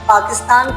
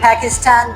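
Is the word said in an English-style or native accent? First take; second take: native; English-style. First: It is said with the native local pronunciation. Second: It is said with an English-style pronunciation. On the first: The speaker calls it right. "पाकिस्तान कहें तो अच्छा लगता है" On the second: The speaker calls it wrong. "ये थोड़ा सा गैर मुनासिब होगा"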